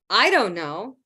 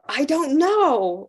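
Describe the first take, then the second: First: The stress falls on the word I. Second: The stress falls on the word know. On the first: Someone else may know. "Maybe she does, but I don't know" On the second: The speaker has no understanding at all. "I don't know or understand or anything"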